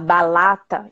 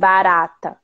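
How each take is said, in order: First: The middle consonant is an L sound. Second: The middle consonant is a tapped R sound. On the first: "ela fala balata" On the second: "em vez de falar assim, barata"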